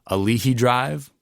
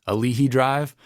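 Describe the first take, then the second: No difference in how they are said.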